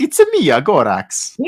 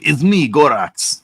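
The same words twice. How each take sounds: First: Much higher, louder Roman Bellic impression; Roman Bellic accent. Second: High, slow put-on foreign accent; Gorax accent. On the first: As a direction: squeak it out as a cartoonish Roman Bellic. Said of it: "He's Roman Bellic". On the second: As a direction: drag out me like a silly monster. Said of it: "I don't know why he has that accent".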